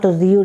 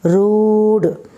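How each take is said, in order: First: The vowel has a 'y' glide, like 'yoo'. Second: The vowel is a plain long 'oo' sound. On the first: The speaker calls it wrong. "it is not rude" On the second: The speaker calls it right. "double O sound, long O sound"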